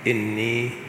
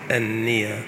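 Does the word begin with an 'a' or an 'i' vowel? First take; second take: i; a. First: The word begins with an 'i' vowel. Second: The word begins with an 'a' vowel. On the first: "قراءة بكسر الهمزة" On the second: "قراءة بفتح الهمزة"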